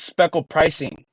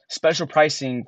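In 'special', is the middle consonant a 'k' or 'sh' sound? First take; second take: k; sh. First: The word has a 'k' sound in the middle. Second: The word has a 'sh' sound in the middle. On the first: The speaker calls it right. "but it's speckle pricing" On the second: The speaker calls it wrong. "we were in in class reading like this"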